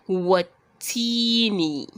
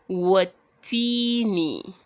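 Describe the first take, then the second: No difference in how they are said.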